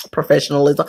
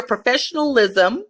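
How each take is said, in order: First: "professionalism" again, lower and drawn out, every syllable laid down; "professionalism" langsam und tiefer, jede Silbe betont; slow emphatic repeat. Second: Said in the usual way. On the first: Shown as a demonstration. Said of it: "put on your professionalism".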